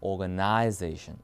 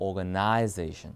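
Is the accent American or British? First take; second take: British; British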